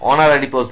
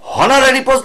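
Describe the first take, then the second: First: Honorary begins with a vowel sound. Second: Honorary begins with an h sound. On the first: The speaker calls it right. "অনারারি post বলি" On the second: The speaker calls it wrong. "হনারারি post বলি না"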